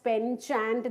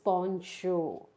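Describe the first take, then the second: First: The first syllable sounds like 'pen'. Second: The first syllable sounds like 'pon'. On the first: The speaker calls it wrong. "We don't pronounce it as penchant, that is wrong" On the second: The speaker calls it right. "We pronounce it as poncho"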